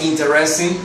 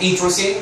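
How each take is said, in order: First: The vowel after the t is clearly pronounced. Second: The vowel after the t is dropped. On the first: The speaker calls it wrong. "jamás algo como interesting" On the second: The speaker calls it right. "no pronuncio esta E, digo interesting"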